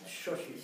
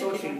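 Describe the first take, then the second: First: The word begins with a sh sound. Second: The word begins with an s sound. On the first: The speaker calls it right. "It's like X, Shoshi" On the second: The speaker calls it wrong. "Not Soshi. Sometimes you put a Z in there"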